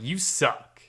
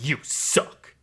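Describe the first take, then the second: First: It imitates the new actor's odd inflection. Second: It imitates the classic Shao Kahn delivery.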